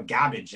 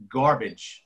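First: "garbage" with the R dropped, like "gabbage"; imitating Davin's pronunciation. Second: Said in the usual way. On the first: Co-host mimicking how a friend says it, "garbage" as "gabbage". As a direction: say "garbage" to rhyme with cabbage, no R. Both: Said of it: "as Davin would say".

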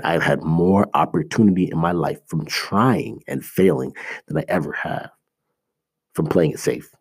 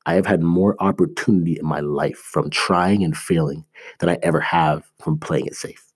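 First: Each word laid down slowly for weight; slow, deliberate repeat. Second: Said in the usual way. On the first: Shown as a demonstration. Repeating his key point to viewers, slow and deliberate. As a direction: say it again, slower, so it sinks in. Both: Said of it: "I'll say that again".

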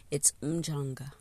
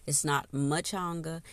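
First: "Mchanga" with no vowel after the M; "Mchanga" starting straight on a hummed M; correct pronunciation. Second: "Machanga" with an added vowel, ma-CHAN-ga; "Machanga" wrongly, with a vowel after M; wrong pronunciation. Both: Shown as a demonstration.

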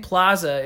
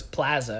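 First: PLAZA with an AH, "PLAH-zuh"; "plaza" with A as in "father"; usual pronunciation. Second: PLAZA with A as in "cat"; soft, low "plaza" with a flat A; imitated regional accent. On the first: Shown as a demonstration. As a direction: say "plaza" with an open AH. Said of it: "instead of ah". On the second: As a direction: say "plaza" as "PLAA-zuh". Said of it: "like, pla, instead of ah".

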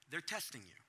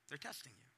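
First: Said in the usual way. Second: They're testing you, repeated much softer; soft knowing repeat; quiet echo. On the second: Shown as a demonstration. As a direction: let it sink in, hushed.

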